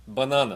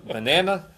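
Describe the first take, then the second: First: "banana" with open "ah", ba-NAH-na; Portuguese pronunciation. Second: "Banana" as buh-NAN-uh, middle A as in "cat"; louder, higher American "Banana", rhyming with "Hannah"; American pronunciation. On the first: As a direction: say "banana" the Portuguese way, middle A as in "father". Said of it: "the Portuguese word for banana". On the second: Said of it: "with a American accent". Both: Shown as a demonstration.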